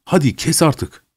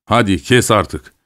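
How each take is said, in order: First: Lightly acted exasperation, pitched up; impatient husband. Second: Slow, understated father-in-law's coaxing; mild fatherly chiding. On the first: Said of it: "Stepan karısına doğru eğildi". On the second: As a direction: lightly urge her to stop, taking it slowly. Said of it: "dedi babaları". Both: A narrator's reading.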